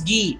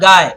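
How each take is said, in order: First: The name is said with French pronunciation. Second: The name is said like the English word. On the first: The speaker calls it right. "this is Guy" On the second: The speaker calls it wrong. "This is not Guy"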